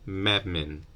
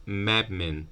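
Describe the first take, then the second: The two takes are said the same way.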